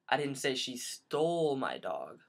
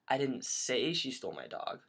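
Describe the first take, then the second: First: The stress falls on the word stole. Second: The stress falls on the word say.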